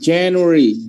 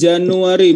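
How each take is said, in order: First: It is read with English pronunciation. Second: It is read with Indonesian pronunciation. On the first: The speaker calls it right. "but January" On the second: The speaker calls it wrong. "bukan bukan Januari"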